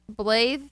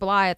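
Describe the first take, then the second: First: The name starts with the sound 'Blay'. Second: The name starts with the sound 'Bly'. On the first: The speaker calls it right. "say Blay, then make the th sound" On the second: The speaker calls it wrong. "which I said Blythe the whole time"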